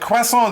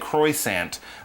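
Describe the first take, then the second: First: The word is pronounced with French sounds. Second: The word is pronounced with English sounds. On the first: "that's the sort of French way of saying it" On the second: "Don't say croissant, then French people will just, you know, laugh"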